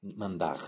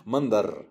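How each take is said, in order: First: Mandar with the final R dropped, said as "manda"; wrong R. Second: Mandar with a clear, trilled R at the end, said louder; rolled R. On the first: Teacher showing learners the wrong way to say Mandar, R dropped. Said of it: "C'est pas mandar". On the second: Teacher showing learners the right way to say Mandar, R rolled. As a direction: roll the final R of Mandar firmly. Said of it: "apprenez à rouler les R". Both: Shown as a demonstration.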